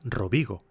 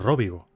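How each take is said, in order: First: The stress falls on the second syllable. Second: The stress falls on the first syllable. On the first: This may be the correct pronunciation. "Quizá se pronuncia Rovigo" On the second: This may be the mistaken pronunciation used earlier. "y no Róvigo"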